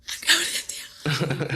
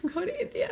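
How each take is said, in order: First: Slow, breathy whisper of realisation; awed whisper. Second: High, bursting declaration; excited announcement. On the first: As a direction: whisper it as if it just dawned on you. Sudden realisation at the meeting. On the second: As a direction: blurt it out with joy. Announcing to her leader. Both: Retold or imitated.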